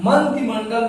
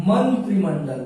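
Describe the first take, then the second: First: मंत्रिमंडल with the "r" dropped, as "mantimandal"; wrong pronunciation demo. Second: मंत्रिमंडल with a clear "tri"; correct pronunciation demo. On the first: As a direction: leave the "r" out of मंत्रिमंडल. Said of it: "मंत्रिमंडल नहीं होता है". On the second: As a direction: sound the "r" in मंत्रिमंडल. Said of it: "मंत्रिमंडल होता है". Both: Shown as a demonstration.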